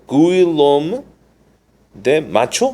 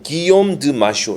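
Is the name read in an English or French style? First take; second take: English; French. First: The name is read with English letter sounds. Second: The name is read with French pronunciation. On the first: The speaker calls it wrong. "영어식으로 읽으면 어떻게 읽어야 될까요?" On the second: The speaker calls it right. "프랑스식으로 읽는다면은"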